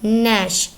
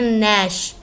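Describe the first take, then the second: Both takes have the same delivery.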